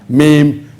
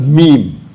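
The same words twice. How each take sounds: First: The word does not rhyme with 'team'. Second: The word rhymes with 'team'. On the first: The speaker calls it wrong. "It's not pronounced as meme" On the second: The speaker calls it right. "The right pronunciation is a meme"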